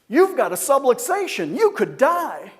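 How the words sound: The words are said in an excited tone. The listener is frightened and confused. The speaker calls it wrong. "Not only did he seem excited that I could die"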